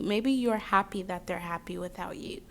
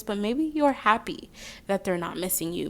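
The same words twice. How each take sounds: First: Soft whispered reassurance; hushed, tender reassurance. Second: Said in the usual way. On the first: Real, not acted. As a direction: whisper it gently to the viewer. Reassuring the viewer.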